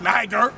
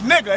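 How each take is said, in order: First: The word is said like 'niger'. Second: The word is said like 'nigger'. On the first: The speaker calls it wrong. "It wasn't pronounced niger" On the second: The speaker calls it right.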